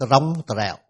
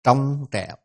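First: "trong trẻo" with t and r pulled apart, r rolled separately; wrong split reading. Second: "trong trẻo" with tr as one fused consonant; correct blended reading. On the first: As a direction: show the mistake: "trong trẻo" as t-rong t-rẻo. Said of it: "nếu không biết đọc là". (đọc sai "trong trẻo", tách rời t và r) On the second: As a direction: model "trong trẻo" cleanly, no separate r. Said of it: "Nhưng thực tế nó đọc là". (đọc đúng "trong trẻo", tr liền một âm) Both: Shown as a demonstration.

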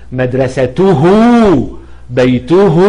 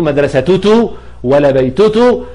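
First: مدرسته، بيته ending in a clear, long -tuhu; h pronoun sounded. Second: مدرستته ولا بيتته ending in a wrong -tutu; t in place of h. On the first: Teacher showing the ha is really heard, long HU ending on مدرسته، بيته. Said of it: "اتنطقت هاء تمامًا". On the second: Teacher showing what cannot be said, wrong TUTU endings on مدرستته ولا بيتته. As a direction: double the TU at the end of مدرستته and بيتته. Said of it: "ما أقدرش أقول". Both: Shown as a demonstration.

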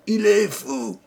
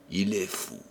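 First: Much higher, louder, breaking into a cry; furious cry. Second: Bitter murmur. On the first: Old man screaming at the guests who doubt him. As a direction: explode on the last fou. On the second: Old man quietly mocking the guests who think him mad. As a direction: mutter it low and bitter. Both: Acted.

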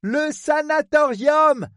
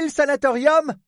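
First: High, drawn-out shout; shouted repeat. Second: Said in the usual way. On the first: Acted. Woman repeats for the man who misheard, slow shout. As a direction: call it out slowly to be heard.

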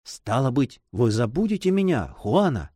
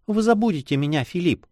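First: Put-on mildly wounded young man's question; understated, anxious hurt; trembling voice. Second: Put-on higher-pitched, sorrowful girl; girlish voice with a touch of reproach; sad young girl. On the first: A narrator's reading. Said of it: "спросил дрожащим голосом". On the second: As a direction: plead lightly as a girl at parting. Girl fears lover will forget her.

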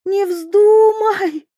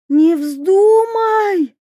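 First: High, slow cry, voice cracking; voice breaking. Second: High, slow, loud wail; desperate yell. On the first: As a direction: let the voice crack on вздумай. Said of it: "Голос принцессы сорвался". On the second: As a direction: scream at her not to jump. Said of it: "завопила принцесса". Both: A narrator's reading.

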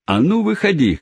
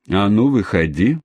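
First: Cabman shouting. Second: Said in the usual way. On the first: Acted. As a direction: call him out to fight. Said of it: "кричал кэбмен". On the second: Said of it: "сказал кэбмен".

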